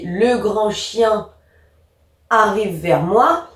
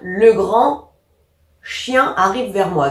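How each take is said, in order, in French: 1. Ça coule sans pause gênante à l'intérieur. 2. Une pause sépare des mots qui vont ensemble.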